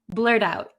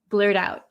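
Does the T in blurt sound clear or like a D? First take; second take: like D; like D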